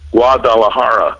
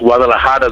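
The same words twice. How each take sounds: First: It is said with an American English accent. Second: It is said with a native Spanish accent. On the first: This is how many people from the States say it. "especially from the States, they'll say Guadalajara" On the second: This is the proper local pronunciation. "it's Guadalajara, the way you pronounce it"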